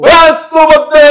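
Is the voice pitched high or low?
high. It is spoken at a much higher pitch.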